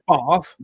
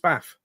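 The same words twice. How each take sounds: First: It is said in a southern English accent. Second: It is said in a northern English accent. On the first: "the way I say" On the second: "go up north, and it's"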